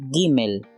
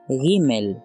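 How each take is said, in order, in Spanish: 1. La primera consonante es oclusiva. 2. La primera consonante es fricativa. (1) "es oclusiva" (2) "es fricativa"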